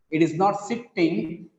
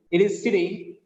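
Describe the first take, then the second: First: "sitting" said as sit-ting; wrong double t. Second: "sitting" with one light t; corrected "sitting", no doubled consonant; corrected single t. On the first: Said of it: "not the double sound". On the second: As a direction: run "sitting" together with a single t. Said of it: "it carries only one sound". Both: Shown as a demonstration.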